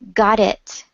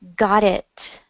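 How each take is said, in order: The two takes are said the same way.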